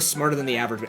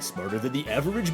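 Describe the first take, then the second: First: It is said in a plain everyday voice. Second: It is said in a put-on cartoon bear voice. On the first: The speaker calls it wrong. "You can't just go smarter than the average" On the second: The speaker calls it right. "You have to say it like Yogi"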